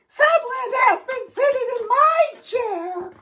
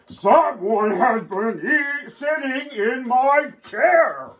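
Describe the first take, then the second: First: It is said in a middle-sized voice. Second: It is said in a big, deep growl.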